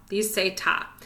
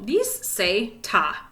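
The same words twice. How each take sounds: First: Said in the usual way. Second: Slow, drawn-out model; slow demo. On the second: Shown as a demonstration. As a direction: spell it out slowly for the class.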